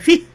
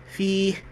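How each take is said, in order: First: The vowel is not held for two counts. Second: The vowel is held for two counts. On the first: The speaker calls it wrong. "Dia tak baca fih" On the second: The speaker calls it right. "dua harakat tu mak asli. Yang dia tahu kena baca fih"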